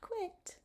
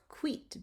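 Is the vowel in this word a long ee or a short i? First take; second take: short i; long ee. First: The vowel is a short i sound. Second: The vowel is a long ee sound. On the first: The speaker calls it wrong. "not quit" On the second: The speaker calls it right. "but quit, because the I has that long E sound"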